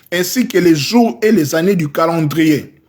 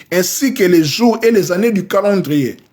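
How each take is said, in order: Both takes have the same delivery.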